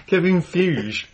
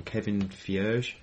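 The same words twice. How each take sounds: First: "Kevin Feige" said firmly, falling at the end; correct pronunciation. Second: "Kevin Feige" said slowly, "Feige" like "fjuzh" with a rising end; a slow German-sounding "Feige", unsure; wrong pronunciation. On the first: Host corrects the guest's name pronunciation, firmly. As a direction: state "Kevin Feige" plainly as the right name. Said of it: "I think his name's pronounced". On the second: Guest mispronounces the Marvel producer's name, slow. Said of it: "Made him sound very German". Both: Shown as a demonstration.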